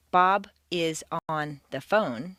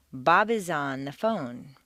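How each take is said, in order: First: "Bob is on the phone" slow, each word kept separate. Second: "Bob is on the phone" linked into one smooth unit, falling at the end; connected sound group. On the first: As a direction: give "Bob", "is", "on", "the phone" their own beats. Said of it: "Native speakers don't say". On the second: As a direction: run "Bob is on" together as one word, then "the phone". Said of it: "but say". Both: Shown as a demonstration.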